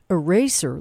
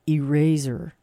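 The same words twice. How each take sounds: First: It is said in an American accent. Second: It is said in a non-American accent, like razor. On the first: "in American English, we say eraser" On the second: "But he's saying eraser"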